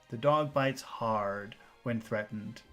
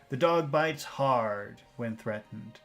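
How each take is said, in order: The two takes are said the same way.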